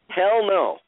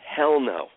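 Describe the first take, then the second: First: It is said forcefully, with conviction. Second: It is said in a plain, casual way.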